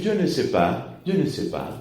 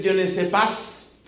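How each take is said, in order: First: "Je ne sais pas" with pas said "pa", no S; soft French pas ending on the vowel; correct French pronunciation. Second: "Je ne sais pas" with the S of pas sounded, "pas"; Spanish-style pas ending in a hissed S; wrong French pronunciation. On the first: Showing the congregation the right way: silent S. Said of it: "tengo que decir". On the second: Showing the congregation the mistake: pas with S. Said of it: "No, tengo que decir". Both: Shown as a demonstration.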